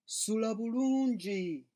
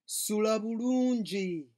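The two takes are said the same way.

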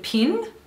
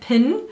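First: The vowel has an Australian sound. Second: The vowel has a Kiwi sound. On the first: "which is the way Australians say it" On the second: "or a hair pin"

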